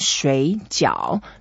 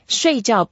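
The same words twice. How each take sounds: First: Both syllables carry a low dipping tone. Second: Both syllables carry a sharp falling tone. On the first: It means dumplings. "both are third tones" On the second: It means to sleep. "both are the fourth tones"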